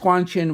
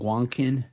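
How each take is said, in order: First: The second syllable starts with a ch sound. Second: The second syllable starts with a k sound. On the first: The speaker calls it right. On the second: The speaker calls it wrong.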